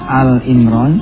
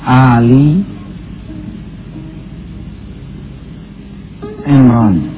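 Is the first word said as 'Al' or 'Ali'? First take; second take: Al; Ali. First: The first word is said as 'Al'. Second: The first word is said as 'Ali'. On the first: The speaker calls it wrong. "jangan baca Al Imran" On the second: The speaker calls it right. "tapi Ali Imran"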